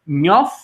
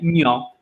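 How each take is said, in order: First: The word ends with an f sound. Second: The word ends in a vowel, no final consonant. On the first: The speaker calls it wrong. "in dialect, that age it switches to a f" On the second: The speaker calls it right. "I pronounce it as nyo, That age is silent again"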